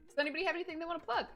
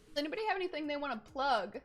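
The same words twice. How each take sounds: First: It is said in the speaker's normal voice. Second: It is said in a put-on character voice.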